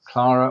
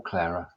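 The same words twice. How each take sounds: First: Clara said "KLAH-ra", open ah vowel. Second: Clara said "KLAIR-a", rhyming with Sarah; Clara with AIR. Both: Shown as a demonstration. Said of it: "How do you pronounce your name?".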